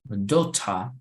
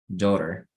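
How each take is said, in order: First: It is said in a British accent. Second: It is said in a non-British accent. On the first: "In British pronunciation, you would say daughter"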